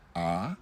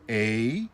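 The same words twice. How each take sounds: First: The vowel is one steady, unchanging sound. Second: The vowel glides from one sound into another. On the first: This is how Spanish or Vietnamese speakers say it. "In Spanish or in Vietnamese, there's five vowels, and they're pronounced like this" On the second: This is how English speakers say it. "In English, the vowels, most of the time, they actually have two sounds"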